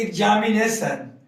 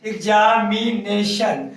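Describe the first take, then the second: First: Said in the usual way. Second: examination slowly, each syllable held; slow teacher's split of examination; broken into syllables. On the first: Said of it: "examination को हम तोड़ेंगे". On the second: Shown as a demonstration. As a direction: sound out एग्जा-मि-ने-शन evenly. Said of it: "examination को तोड़े हैं".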